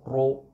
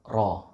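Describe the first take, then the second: First: The ra is said with lips pushed forward. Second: The ra is said with lips unrounded. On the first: The speaker calls it wrong. "Jadi bukan ro" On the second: The speaker calls it right. "tidak perlu kita memonyongkan mulut kita atau kedua bibir kita"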